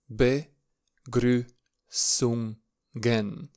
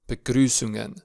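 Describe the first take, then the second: First: "Begrüßungen" drawn out very slowly, each syllable apart. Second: Said in the usual way. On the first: Shown as a demonstration. Teacher introduces the lesson title for beginners, slow syllable by syllable. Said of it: "încet". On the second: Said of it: "Vom pronunța clar".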